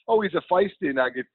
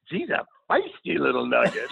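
First: It is said plainly, in his own voice. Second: It imitates the woman's lively original delivery.

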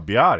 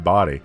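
First: The word is pronounced in a distorted way. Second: The word is pronounced in the ordinary way. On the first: The speaker calls it wrong. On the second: The speaker calls it right.

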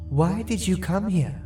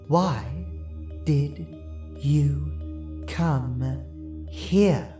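First: It is said at normal speed. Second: It is said slowly.

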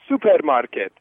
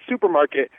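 First: It is said with an imitated foreign accent. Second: It is said in the speaker's normal accent. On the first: The listener understood it right away. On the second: The listener did not understand it.

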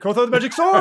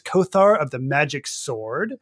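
First: It is said with excited emphasis. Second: It is said in a flat, plain tone.

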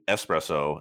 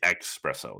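First: The word begins with an 'es' sound. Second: The word begins with an 'ex' sound. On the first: The speaker calls it right. "espresso is the right way to say it" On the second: The speaker calls it wrong. "some people will say espresso. There's no X"

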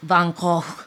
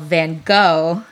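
First: The name is said the Dutch way. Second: The name is said as Americans say it.

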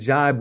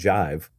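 First: The word ends with a b sound. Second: The word ends with a v sound. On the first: The speaker calls it right. "which I only recently learned is the correct pronunciation" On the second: The speaker calls it wrong. "It's not jive"

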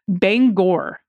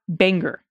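First: The second syllable sounds like 'gor'. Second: The second syllable sounds like 'ger'. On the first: The speaker calls it right. "is pronounced Bangor" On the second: The speaker calls it wrong. "not Banger"

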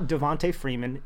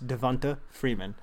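First: The first name ends with a 'tay' sound. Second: The first name ends with a 'tuh' sound. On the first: The speaker calls it wrong. "It's not Tay" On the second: The speaker calls it right. "It ends in an A"

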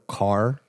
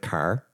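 First: The word is said in a careful, crisp way. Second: The word is said in a lazy, slack way. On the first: The speaker is from the West Coast. "on the West Coast, it's like much more proper" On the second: The speaker is from the East Coast. "if you're from the East Coast, it's a lot lazier, a lot more slack"

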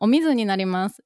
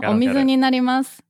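First: Omizu has the pitch accent of 'hostess work'. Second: Omizu has the pitch accent of 'water'. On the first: I am going to become a hostess. "is like I'm going to be a hostess" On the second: Here is the water. "Then that's here is the water"

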